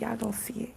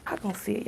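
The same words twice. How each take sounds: First: Teasing whisper. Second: Said in the usual way. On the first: Pretend. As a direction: whisper it like a secret.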